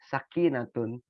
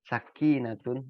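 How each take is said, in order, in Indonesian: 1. Kata itu berakhir dengan suku kata -tun yang penuh. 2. Kata itu berakhir dengan suku kata -tun yang penuh.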